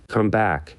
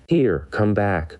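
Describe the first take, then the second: First: Shouted. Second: Frightened. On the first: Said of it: "shouted the boy again". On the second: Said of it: "cried Tip in a frightened voice". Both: A narrator's reading.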